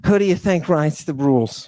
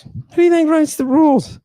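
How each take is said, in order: First: Said in the usual way. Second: Mocking high voice. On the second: Rhetorical question, repeated mocking.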